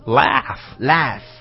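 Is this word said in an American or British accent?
American. It is said in an American accent. "美式laugh"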